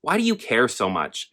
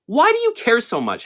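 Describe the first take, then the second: First: Said in the usual way. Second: Much higher, heated repeat of the question; exasperated. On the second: Real, not acted. Asking audiobook critics again, higher and exasperated. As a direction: throw the question back, fed up. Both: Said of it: "here we are, once again".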